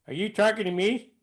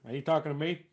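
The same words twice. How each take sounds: First: Higher, misfired De Niro voice; botched impression, pitched up in the wrong character; De Niro impression gone wrong. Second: Understated movie tough guy, quietly challenging; Robert De Niro. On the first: Impressionist stuck in the previous character, De Niro line in wrong voice. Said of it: "I got the wrong face on". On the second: Impressionist retrying with the right face, softer tough-guy voice. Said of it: "if I was doing Robert De Niro". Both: Shown as a demonstration.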